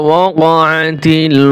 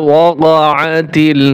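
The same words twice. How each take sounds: Both takes have the same delivery.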